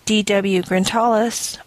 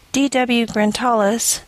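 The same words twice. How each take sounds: The two takes are said the same way.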